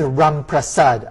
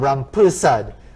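First: The name is said the non-Trinidadian way. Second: The name is said the common Trinidadian way. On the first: "His name is" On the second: "which is how it's often pronounced in Trinidad"

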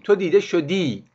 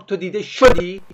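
First: The last word is stressed on its final syllable. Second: The last word is stressed on its first syllable. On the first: You have been seen (present perfect). "اگه ببین ای آخر شما تشدید میدیم" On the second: You were seen (simple past). "شش رو تشدید بدیم"

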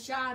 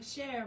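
First: The word ends in an 'eye' sound. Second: The word ends in an 'air' sound. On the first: The speaker calls it right. "he's like, no, shy" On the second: The speaker calls it wrong. "like, share, mon cher ... it's French, it's Creole"

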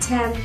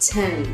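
First: The final n sound is clearly pronounced. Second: The final n sound is dropped. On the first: The speaker calls it right. "bật endings" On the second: The speaker calls it wrong. "không bật"

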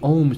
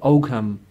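First: The G is silent. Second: The G is pronounced. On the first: This is the local Irish way of saying it. "It's a silent G, so we say Om script" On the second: This is how English speakers say it. "English people pronounce it Oak Ham"

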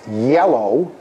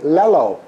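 First: The word begins with a Y glide sound. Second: The word begins with an L sound. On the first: "it's pronounced yellow" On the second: "you're just not ready for the glide"

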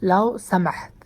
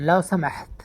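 Both takes have the same delivery.

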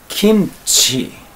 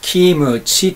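First: The m closes the first syllable with no vowel. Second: An extra u vowel follows the m sound. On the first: The speaker calls it right. "韓国語の発音ではどういうかと言いますと" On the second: The speaker calls it wrong. "日本人的な発音でいくと"

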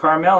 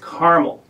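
First: Carmel is said the Spanish-influenced California way. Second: Carmel is said the local Indiana way. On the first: The speaker assumed the California name. "the pronunciation is Carmel" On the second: The local resident corrected the name. "he corrected me"

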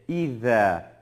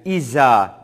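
First: The consonant is lisped, tongue between teeth. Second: The consonant is a plain z sound. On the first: The speaker calls it right. "Dişlerimizin arasına getirerek İza, İza şeklinde okuyoruz" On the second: The speaker calls it wrong. "Yani İza şeklinde değil"

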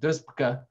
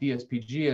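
First: It is run together as one single word. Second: It is spelled out as four separate letters. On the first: The speaker calls it wrong. "and not" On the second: The speaker calls it right. "I put spaces between it"

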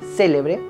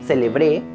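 First: The stress is on the first syllable. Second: The stress is on the last syllable. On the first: It means something famous. "y si está en la antepenúltima sílaba" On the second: It is a verb in the past tense. "Con el acento en la última sílaba"

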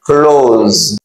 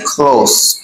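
First: The word ends with a buzzing z sound. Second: The word ends with a hissing s sound. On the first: It means to shut something. "li gen son z" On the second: It means near to something. "listen to the way I pronounce this"

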